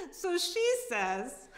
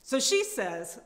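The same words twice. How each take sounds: First: Slow, high, breaking into laughter; can't get it out for laughing; cracking up mid-sentence. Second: Loud, fed-up setup line; angry storyteller beat; ranting lead-in. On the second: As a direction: push the story on, still heated. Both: Acted. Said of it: "reading Sharon's tirade".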